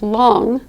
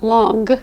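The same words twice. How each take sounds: First: It ends in a nasal with no hard G. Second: It ends with an audible hard G sound. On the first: The speaker calls it right. "it's long" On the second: The speaker calls it wrong. "not long"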